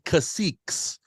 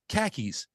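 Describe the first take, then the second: First: It is said in three syllables, ending -ques. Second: It is said in two syllables, like khakis. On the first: The speaker calls it right. "They're called caciques" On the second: The speaker calls it wrong. "you call the, the rulers of the chiefdoms khakis"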